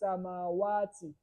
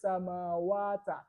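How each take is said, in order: First: The word ends with an 'i' vowel. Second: The word ends with an 'a' vowel. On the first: The speaker calls it right. "we say samawati" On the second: The speaker calls it wrong. "We don't say samawata"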